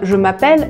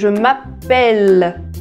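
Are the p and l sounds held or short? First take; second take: Short; Held. First: The p and l sounds are short. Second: The p and l sounds are held longer. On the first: The speaker calls it wrong. "ça ne se prononce pas" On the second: The speaker calls it right. "on a bien deux P et deux L"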